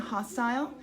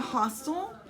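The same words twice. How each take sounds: First: It is said with a British accent. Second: It is said with an American accent.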